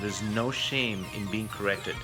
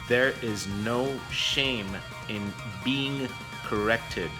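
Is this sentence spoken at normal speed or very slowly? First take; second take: normal; very slowly. First: It is spoken at a normal speed. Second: It is spoken very slowly.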